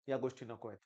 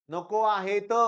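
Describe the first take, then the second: First: Low and soft, almost under the breath; quiet warning. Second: "नको आहेत" punched louder, "आहेत" stressed; firm repeat. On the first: Teacher quietly warns students against stress, low and soft. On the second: Teacher firmly repeats "नको आहेत" to students, loud insistence. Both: Shown as a demonstration.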